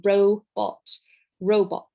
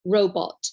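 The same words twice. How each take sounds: First: Ro-bot, two clear beats; ROW-bot, each beat marked; robot in syllables. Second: Robot clapped out, ro then bot; robot with a clap on each syllable. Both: Shown as a demonstration. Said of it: "or you can clap".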